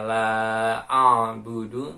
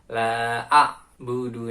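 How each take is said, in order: First: The consonant before budu is smooth and flowing. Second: The consonant before budu is an abrupt stop. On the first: The speaker calls it right. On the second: The speaker calls it wrong.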